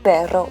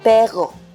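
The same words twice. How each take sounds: First: The double r is strongly rolled. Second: The double r is not rolled. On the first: The speaker calls it right. "I am pronouncing perro well" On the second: The speaker calls it wrong. "I used to talk like this"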